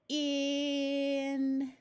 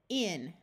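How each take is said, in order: First: The word is said slowly with a held vowel. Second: The word is said quickly as one unit. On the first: "we're going to hold the vowel sound and exaggerate it, and we will say it slow" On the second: "Now say it fast"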